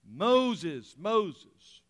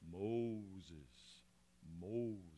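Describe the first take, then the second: First: It is said in a plain reading voice. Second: It is said in a dramatic movie God voice.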